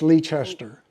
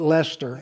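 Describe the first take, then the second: First: The name is pronounced the way outsiders say it. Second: The name is pronounced the way locals say it. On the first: The speaker is not from the area. "if you're not from here, it's Leicester" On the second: The speaker is from the area. "The locals call it Lester"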